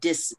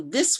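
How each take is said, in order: First: The word starts with a hard d sound. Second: The word starts with a soft th sound. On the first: The speaker calls it wrong. "with the d" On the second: The speaker calls it right. "this will become dis"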